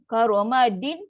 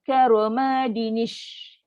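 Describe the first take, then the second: First: The word ends on n with no linking vowel. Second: An i vowel links the n to the next word. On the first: The speaker calls it wrong. "kaedah baca sambung tak betul" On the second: The speaker calls it right. "barulah boleh bunyi karomadinish"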